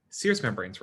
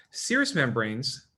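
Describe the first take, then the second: First: Said in the usual way. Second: Serous membranes drawn out slowly; slow and deliberate. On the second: Shown as a demonstration. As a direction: stretch out serous membranes for note-taking.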